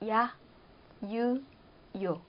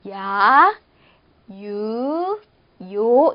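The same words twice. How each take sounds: First: Each sound is short, a single syllable. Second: Each sound is drawn out into two syllables. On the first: The speaker calls it right. "이렇게 하시도록" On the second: The speaker calls it wrong. "길게 발음해서 이음절이 되지 않도록 주의해 주세요. ... 이렇게 하시면 안 돼요"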